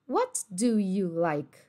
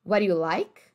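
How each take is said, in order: First: "What do you like" very slowly, clear words; slow careful. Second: "What do you like" fast, "wod u like"; linked quick. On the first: Teacher shows the careful option, slowly. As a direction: give each word its own beat. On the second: Teacher shows the casual linked option, quick. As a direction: slur it into one word. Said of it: "Você pode falar". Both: Shown as a demonstration.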